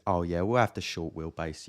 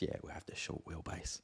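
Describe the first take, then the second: First: Lightly voiced confident customer; a hint of bluffing buyer; mock assured customer. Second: Whispered under the breath; whispered repeat. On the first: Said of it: "I put on a little voice". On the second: Retold or imitated. Muttered aside repeating the order.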